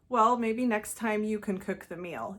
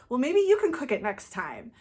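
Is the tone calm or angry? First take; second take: calm; angry. First: It is said in a calm, even tone. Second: It is said in an angry, reactive tone.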